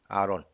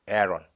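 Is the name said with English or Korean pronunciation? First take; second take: Korean; English. First: The name is said with Korean pronunciation. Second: The name is said with English pronunciation.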